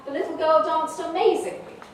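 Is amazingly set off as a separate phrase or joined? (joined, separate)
joined. The whole sentence runs as one phrase. The girl was a brilliant dancer. "in the second one, in B, it's an adverb of manner"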